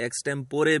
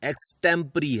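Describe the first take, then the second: First: The word ends in a 'po-ray' sound. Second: The word ends in a 'puh-ree' sound. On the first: The speaker calls it wrong. "कुछ लोग इसे एक्सटेम्पोरे भी बोलते हैं" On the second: The speaker calls it right. "इस शब्द का सही उच्चारण एक्सटेम्परी है"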